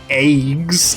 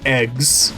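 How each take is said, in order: First: The vowel is said in a Canadian way. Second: The vowel is said in a non-Canadian way.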